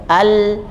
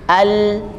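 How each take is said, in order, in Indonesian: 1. Bunyi l mengalir sebentar. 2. Bunyi l mengalir sebentar.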